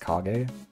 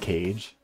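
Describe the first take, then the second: First: The G is hard, as in go. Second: The G is soft, like English cage. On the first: The speaker calls it right. "but it's" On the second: The speaker calls it wrong. "feels like it should be pronounced"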